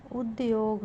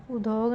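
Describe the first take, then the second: First: उद्योग said as ud-yog; correct pronunciation. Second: उद्योग said as u-dog, no y; wrong pronunciation. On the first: Teacher giving the correction, उद्योग as ud-yog. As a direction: sound the y in उद्योग. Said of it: "होगा". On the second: Teacher showing a spelling error, उद्योग as u-dog. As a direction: drop the y from उद्योग. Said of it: "नहीं". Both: Shown as a demonstration.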